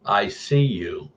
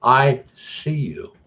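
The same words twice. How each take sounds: First: A hint of a low, creepy doll, very slow; "I see you" drawn out slowly and ominously; creepy deep doll voice. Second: Put-on higher, very slow creepy little girl; "I see you" sung out slowly as a haunted doll girl. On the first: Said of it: "in a really deep voice". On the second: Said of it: "but in the little girl's voice now".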